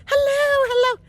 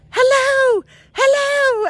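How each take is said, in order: First: High mock holler back; calling back. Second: Put-on very high, loud kid's holler; little kid's call. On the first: Lost woman answering the distant kid, calling back. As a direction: echo the call high, as herself. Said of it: "And I'm going". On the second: Distant kid to lost woman, little kid's call. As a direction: call out high, imitating a child. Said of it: "the kid's going".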